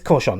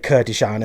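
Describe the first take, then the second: First: The surname sounds like Corchon, with two syllables. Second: The surname sounds like Kurdishan, with three syllables. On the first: The speaker calls it right. "It's Corchon" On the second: The speaker calls it wrong. "I did used to say Kurdishan"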